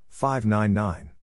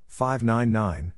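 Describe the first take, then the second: No difference in how they are said.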